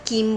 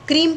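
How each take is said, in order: First: The word starts with a plain 'k'. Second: The word starts with a 'kr' cluster. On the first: The speaker calls it wrong. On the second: The speaker calls it right.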